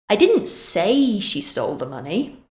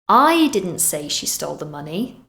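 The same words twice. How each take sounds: First: The stress falls on the word say. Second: The stress falls on the word I. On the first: It was expressed another way, not said. "Maybe I wrote it instead" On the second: Someone else said it. "meaning maybe someone else did"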